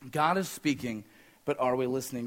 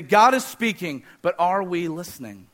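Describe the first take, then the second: First: Hushed, dropped-down echo of the line; soft echo. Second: Said in the usual way. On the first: Shown as a demonstration. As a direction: lower and much softer repeat. Repeated line, softer echo.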